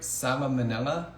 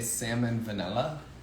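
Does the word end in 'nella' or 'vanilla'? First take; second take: nella; vanilla. First: The word ends in a plain 'nella' sound. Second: The word ends with an added 'vanilla' sound. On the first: The speaker calls it right. "I hope I said that right" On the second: The speaker calls it wrong. "I used to say salmon vanilla"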